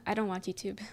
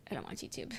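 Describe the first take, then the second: First: Said in the usual way. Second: Much softer and lower muttered repeat; quiet aside. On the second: Real, not acted. Streamer mutters the answer again to herself, much softer. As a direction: drop it under your breath.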